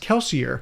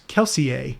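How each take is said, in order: First: The name does not end with an 'ay' sound. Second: The name ends with an 'ay' sound. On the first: This is how the author says it. "I've heard him on podcasts actually say it as" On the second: This is how a reader from a French-influenced region pictures it. "with the A at the end"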